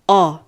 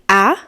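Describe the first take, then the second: First: The vowel sounds like the one in ball. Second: The vowel sounds like the one in apple. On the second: "apple, like a"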